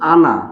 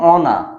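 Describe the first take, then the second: First: The first vowel sounds like 'a'. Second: The first vowel sounds like 'o'. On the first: The speaker calls it right. "উচ্চারণটা হচ্ছে আনা" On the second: The speaker calls it wrong. "এটার উচ্চারণ হওয়ার কথা অনা"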